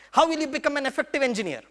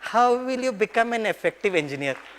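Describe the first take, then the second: First: It is said in an angry tone. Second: It is said in a loving tone. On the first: The speaker is scolding the latecomer. The speaker calls it wrong. "वही dialogue जो गुस्से से बोलता था ना" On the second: The speaker is gently caring for the latecomer. The speaker calls it right. "अभी बड़े प्यार से बोलता हूँ"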